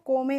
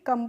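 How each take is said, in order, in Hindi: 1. स्वर 'oh' जैसी आवाज़ करता है। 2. स्वर 'uh' जैसी आवाज़ करता है। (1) "को में नहीं" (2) "कम पढ़ते हैं"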